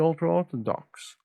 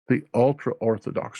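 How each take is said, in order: First: The words are mumbled and run together. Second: The words are spoken clearly and distinctly. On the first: The speaker calls it wrong. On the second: The speaker calls it right.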